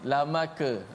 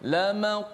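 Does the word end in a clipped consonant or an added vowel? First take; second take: added vowel; clipped consonant. First: A full vowel is added after the final consonant. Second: The final consonant is clipped with a short bounce. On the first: The speaker calls it wrong. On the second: The speaker calls it right.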